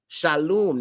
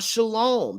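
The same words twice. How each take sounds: First: The last vowel sounds like 'oo'. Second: The last vowel sounds like 'oh'. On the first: The speaker calls it right. "There's no O. ... There's only the U" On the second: The speaker calls it wrong. "not shalom"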